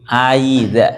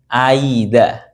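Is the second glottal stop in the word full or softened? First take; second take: softened; softened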